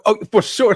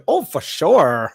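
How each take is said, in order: First: Said in the usual way. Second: SURE drawn out in a mimicking voice; odd delivery imitated. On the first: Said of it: "you could have just said it like". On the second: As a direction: mimic him, stretching "sure" into a long "shorrr". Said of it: "why'd you say it like that?".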